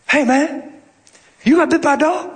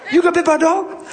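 First: Voicing a friendly Southern maintenance man, lightly; Southern accent. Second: Higher, laughing Southern man's question; Southern accent. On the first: Maintenance man asking the preacher about a bite, Southern accent. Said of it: "He's real Southern". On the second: Retold or imitated. Maintenance man repeating his question, high Southern accent. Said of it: "That's just how he talked".

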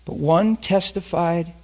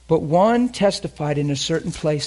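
First: "one testified" drawn out slowly with weight; slow emphasis. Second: Said in the usual way. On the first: Shown as a demonstration. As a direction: linger on "But one testified".

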